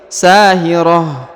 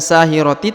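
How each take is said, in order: First: The word ends with a soft h sound. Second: The word ends with a full ti syllable. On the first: The speaker calls it right. "tapi sahirah" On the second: The speaker calls it wrong. "bukan sahiroti"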